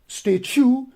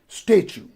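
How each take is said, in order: First: The stress is on the second syllable. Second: The stress is on the first syllable. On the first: The speaker calls it wrong. "Not statue" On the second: The speaker calls it right. "the stress goes on the first syllable"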